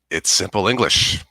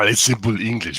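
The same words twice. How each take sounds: First: It is said in the speaker's plain accent. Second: It is said in an imitated Austrian accent.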